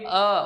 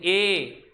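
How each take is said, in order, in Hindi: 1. यह स्वर छोटे 'uh' जैसा सुनाई देता है। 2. यह स्वर 'ay' जैसा सुनाई देता है। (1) "ए नहीं अ" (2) "कई बच्चे इसको ए पढ़ते हैं"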